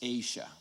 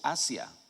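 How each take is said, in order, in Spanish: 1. Se pronuncia como lo hacen los hablantes de inglés. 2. Se pronuncia como lo haría un hablante de español. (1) "no, it's Asia" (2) "está en español, dice Asia"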